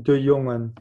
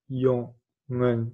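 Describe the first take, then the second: First: Said in the usual way. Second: "jongen" in two separate beats, jon, gen; split into syllables. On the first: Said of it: "c'est singulier". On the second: Shown as a demonstration. Teacher counting syllables for learners, "jongen" broken in two. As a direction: say "jongen" syllable by syllable with a gap between. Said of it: "deux syllabes".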